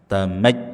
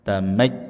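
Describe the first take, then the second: First: The ya sound is cut off abruptly. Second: The same.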